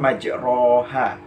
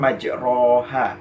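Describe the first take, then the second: First: The vowel after r sounds like 'o'. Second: The vowel after r sounds like 'o'.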